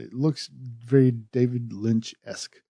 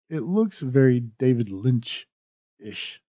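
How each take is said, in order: First: Lynch-esque said with an esk ending. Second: Lynch-ish said with an ish ending. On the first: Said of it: "I should say". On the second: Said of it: "or esque, I should say". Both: Shown as a demonstration.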